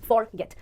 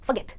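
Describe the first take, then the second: First: The first syllable is a full "for". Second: The first syllable is a short reduced "f". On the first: The speaker calls it wrong. "हमें idea मिलता है कि ये word होना चाहिए फॉर गेट, पर ऐसा नहीं है" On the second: The speaker calls it right. "आप इसको प्रोनाउंस करेंगे फ"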